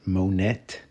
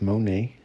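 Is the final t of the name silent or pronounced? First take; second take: pronounced; silent. First: The name ends with a t sound. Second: The name ends without a t sound. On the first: The speaker calls it wrong. "not Monette" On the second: The speaker calls it right. "That is pronounced Monet"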